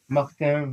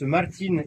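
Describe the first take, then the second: First: The name is said with French pronunciation. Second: The name is said with Gascon pronunciation.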